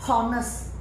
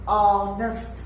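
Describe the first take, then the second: First: The word begins with an audible h sound. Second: The word begins with a vowel, no h sound. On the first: The speaker calls it wrong. "not honest" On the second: The speaker calls it right. "the pronunciation is honest ... There's no H sound"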